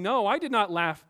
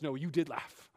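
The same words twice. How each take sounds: First: Louder, defensive protest; indignant denial. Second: Lower, quieter, steady correction; calm divine reply. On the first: Sarah denying to the Lord that she laughed, loud and defensive. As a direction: deny it hotly, a bit raised. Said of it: "Sarah denies it". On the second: The Lord calmly correcting Sarah, low and quiet. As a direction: set her straight gently and low. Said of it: "but he says". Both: Retold or imitated.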